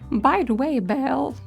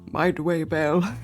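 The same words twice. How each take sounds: First: The line is read in a normal voice. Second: The line is read in a deeper voice. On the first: The speaker calls it wrong. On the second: The speaker calls it right.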